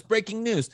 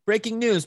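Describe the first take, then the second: First: Mock news jingle, echo. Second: Sung-out breaking news sting, pitched up; playful fake broadcast alert; mock news jingle. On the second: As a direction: announce it like a TV news intro. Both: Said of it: "I wish I had breaking news sound effect".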